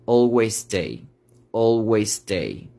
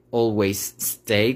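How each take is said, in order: First: "always stay" with one shared S, "alwaystay"; linked "always stay". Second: "always stay" with a pause between the two S sounds; separated "always stay". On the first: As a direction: merge the two S sounds. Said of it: "voy a conectar las S". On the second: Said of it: "como que hago una pausa". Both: Shown as a demonstration.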